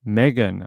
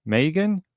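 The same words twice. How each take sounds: First: Megan said as "MEG-un", short e, falling; local pronunciation. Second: Megan said as "MAY-gun", long ay, rising; other pronunciation. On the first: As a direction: say "Megan" his way, MEG-un, settled. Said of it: "that's how we say it here". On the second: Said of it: "I'm not gonna pronounce it like that". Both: Shown as a demonstration.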